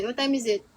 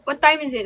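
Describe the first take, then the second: First: Said in the usual way. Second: What time is it? asked brightly and a bit louder; playful question. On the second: Shown as a demonstration. Streamer sets up the higda joke for viewers, louder. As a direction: tease the question out loud. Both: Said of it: "it's time to higda".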